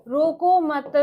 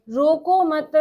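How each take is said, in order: Both takes have the same delivery.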